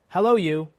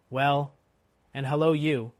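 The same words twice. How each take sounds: First: Loud, high hail; hailing shout. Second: Loud, lightly hoarse hail back; hoarse reply. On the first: Guard hails the rider, loud challenging shout. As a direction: holler a challenge at a stranger. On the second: Jerry answers the guard, hoarse hail. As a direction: throw the greeting back hoarsely. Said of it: "more hoarsely than before". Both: A narrator's reading.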